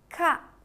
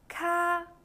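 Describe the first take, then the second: First: The pitch falls sharply from high to low. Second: The pitch stays high and level.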